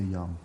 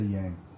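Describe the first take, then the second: First: The vowel sounds like the one in 'hung'. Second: The vowel sounds like the one in 'hang'. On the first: This is how native Chinese speakers say it. The speaker calls it right. "Chinese people, and they they always say young" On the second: This is how most other people say it. The speaker calls it wrong. "and never say yang"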